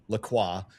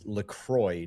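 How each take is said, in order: First: The name is said in a French-sounding way. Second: The name is said in a plain American way. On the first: The speaker calls it wrong. "not LaCroix ... the French sounding version" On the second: The speaker calls it right. "it actually is LaCroix"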